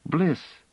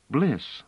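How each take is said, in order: First: "Bliss" high, with a hissing final S; child's imperfect "Bliss", S a little sibilant; slightly hissed S. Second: Said in the usual way. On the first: A narrator's reading. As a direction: hiss the S at the end of "Bliss". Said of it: "hissing the S a bit imperfectly".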